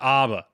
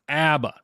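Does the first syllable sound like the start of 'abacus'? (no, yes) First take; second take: no; yes. First: The first vowel differs from the 'abacus' vowel. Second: The first vowel matches the 'abacus' vowel. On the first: The speaker calls it wrong. "it's not ABBA" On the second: The speaker calls it right. "it's ABBA. So if you got, if you need to remember, it's abacus"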